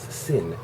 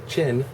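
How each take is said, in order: First: The word begins with an s sound. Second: The word begins with a ch sound. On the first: The speaker calls it wrong. "she mispronounces it sin because they don't have that pronunciation sound" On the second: The speaker calls it right. "So chin becomes sin"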